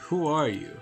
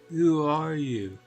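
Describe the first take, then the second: First: It is said in a plain voice. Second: It is said in an obnoxious mocking voice.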